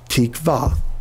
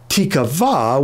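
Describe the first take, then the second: First: The word is said in a shortened, contracted form. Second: The word is said in a fuller, longer form. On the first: It is the everyday form after frequent use. "if you say it often enough, pretty soon you'd be pronouncing it tikva" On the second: It is built from the word for wait plus a letter. "adding the Hebrew letter tav to the beginning. That would give you tikva"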